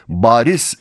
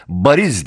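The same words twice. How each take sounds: First: "bariz" with the first A held long. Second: "bariz" with a short first A. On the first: Announcer shows listeners the correct reading, long A in "bariz". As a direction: stretch the "ba" in "bariz" into a long vowel. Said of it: "A harfindeki uzatmayı gösteren iki noktayla". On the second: Announcer shows how those unfamiliar with it misread, short A in "bariz". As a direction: say "bariz" with no lengthening on the "ba". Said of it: "A sesindeki uzatma belirtilmeseydi". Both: Shown as a demonstration.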